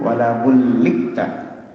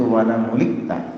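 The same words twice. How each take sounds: First: The L sound is doubled and held longer. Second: The L sound is single and short. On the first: "boleh dibaca dengan tasydid huruf lamnya" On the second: "dibaca takhfif"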